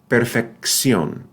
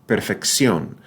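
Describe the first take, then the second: No difference in how they are said.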